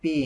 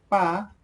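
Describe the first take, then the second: First: "P" said as pee, long ee vowel; English letter name. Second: "Pa" high and clear, open ah vowel; Quechua pronunciation. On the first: Teacher contrasts it with Quechua, English letter name. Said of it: "in English you pronounce P". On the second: Teacher models the alphabet sound, Quechua pronunciation. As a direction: say "Pa" as a crisp pah. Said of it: "you pronounce pa". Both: Shown as a demonstration.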